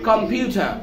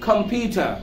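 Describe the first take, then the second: The two takes are said the same way.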